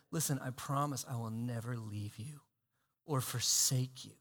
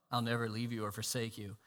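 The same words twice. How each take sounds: First: Much lower and softer, intimate; Jesus tenderly promising never to leave; tender whisper-soft promise. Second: Much lower and softer; quoting the promise in a hush. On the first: Acted. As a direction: speak it close, hand on their shoulder. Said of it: "Jesus coming up to you and saying". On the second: Retold or imitated. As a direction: say it softly, almost reverent. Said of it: "if you believe this promise".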